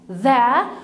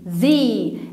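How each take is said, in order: First: The vowel is a short 'uh' sound. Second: The vowel is a long 'ee' sound. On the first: "مرة هقولها ذا ذا" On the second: "والمرة التانية هنقولها ذي ذي ذي لما يجي بعدها كلمة بتبدأ بفاول ساوند"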